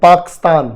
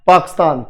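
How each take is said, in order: First: The k runs straight into a stressed s. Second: The same.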